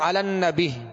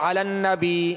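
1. لفظ کے آخر میں ایک ہلکی ہ کی آواز شامل ہوتی ہے۔ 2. آخری مصوتہ لمبا کھینچا جاتا ہے۔ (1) "بعض پڑھتے ہیں علی النبی ہا کی آواز پیدا ہوتی ہے" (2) "یا علی النبی کھینچ جاتا ہے"

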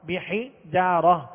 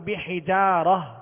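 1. لفظ کے آخر میں ہائے ساکنہ کی آواز ہے۔ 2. لفظ کے آخر میں ہائے ساکنہ کی آواز ہے۔

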